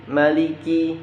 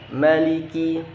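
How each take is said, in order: No difference in how they are said.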